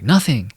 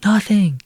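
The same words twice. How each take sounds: First: Said in the usual way. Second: Sing-song nothing, much higher and louder; teasing nothing. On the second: Retold or imitated. Kid teasing his friend after calling him again, high loud teasing nothing.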